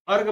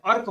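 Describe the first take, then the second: First: अर्घ said as "arg", voiced g ending; wrong g ending. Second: अर्क said as "ark", hard k ending; correct k ending. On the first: Teacher showing students a wrong option, g ending. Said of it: "तब भी ये गलत है". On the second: Teacher correcting the wrong option for students, k ending. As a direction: end अर्क on an unvoiced k sound. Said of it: "अर्क होता है". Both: Shown as a demonstration.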